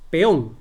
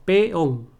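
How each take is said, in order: First: "Peón" quick, in one beat; run together. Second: "Peón" broken into pe, ón; syllables separated. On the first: Teacher testing syllable split, joined "Peón". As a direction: say "Peón" loud with the vowels joined. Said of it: "¿no?". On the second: Teacher showing how you separate syllables, split "Peón". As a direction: say "Peón" as two distinct beats. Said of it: "tú separas en sílabas". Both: Shown as a demonstration.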